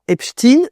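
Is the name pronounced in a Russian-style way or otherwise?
Russian-style. The name is given a Russian-style pronunciation. "je ne dirais pas Epstein ... dire Epstein, c'est en fait le prononcer à la russe"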